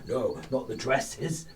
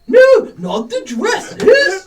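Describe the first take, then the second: First: It is said in the speaker's natural voice. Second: It is said imitating the other person's voice.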